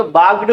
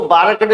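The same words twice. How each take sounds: First: बार्क्ड as one syllable, "baarkd", no vowel after K; सही उच्चारण. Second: बार्क्ड broken into syllables as "baar-ka-ted", R and K sounded; गलत उच्चारण. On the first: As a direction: run the final KD of बार्क्ड together, "baagd". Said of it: "बार्क्ड बोलेंगे". (बार्क्ड को एक झटके में "बाग्ड" जैसा बोलें) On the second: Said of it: "इसको बार्क्ड नहीं बोलेंगे". (बार्क्ड को तोड़कर "बारकटेड" जैसा बोलें) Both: Shown as a demonstration.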